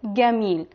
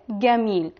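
First: It is said with an Egyptian Arabic pronunciation. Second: The same.

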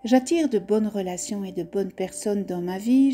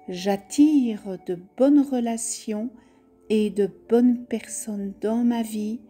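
First: It is said at a normal, livelier pace. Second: It is said more softly and gently.

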